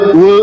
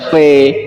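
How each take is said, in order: First: It begins with a w sound. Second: It begins with a v sound. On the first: The speaker calls it wrong. "kalau di sini dibaca we" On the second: The speaker calls it right. "berikutnya jangan baca we lagi kamu... kamu baca v"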